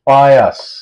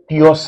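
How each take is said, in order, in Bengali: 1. প্রথম অক্ষরটি 'pie' এর মতো শোনায়। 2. প্রথম অক্ষরটি 'pee' এর মতো শোনায়। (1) "এটার উচ্চারণ হচ্ছে পায়াস" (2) "পিয়স না"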